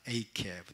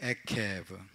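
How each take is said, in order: First: The first vowel glides like ei. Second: The first vowel is a plain e sound. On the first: "젤의 발음은 A로 발음을 많이 합니다" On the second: "에케브 혹은"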